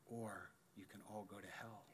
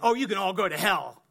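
First: It is said with love and concern. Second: It is said with hate and condemnation.

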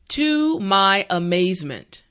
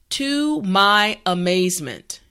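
Both takes have the same delivery.

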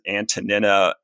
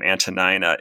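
First: The middle syllable sounds like 'neen'. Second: The middle syllable sounds like 'nine'. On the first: This follows the ancient Greek pronunciation. "I pronounce it Antonina as sort of a little bit of an affectation" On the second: This is the more common UK English form. "the way you are pronouncing her name"

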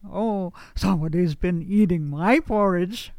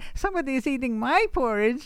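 First: It is said in a papa bear voice. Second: It is said in a mama bear voice.

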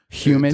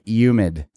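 First: The word begins with a clear H sound. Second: The word begins without any H sound. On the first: "Do you pronounce the H?" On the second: "They don't say the H"

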